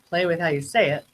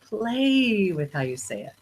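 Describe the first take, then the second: First: It is said flatly, with little pitch variation. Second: It is said playfully, with lively pitch variation. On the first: The speaker calls it wrong. "Instead of" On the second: The speaker calls it right.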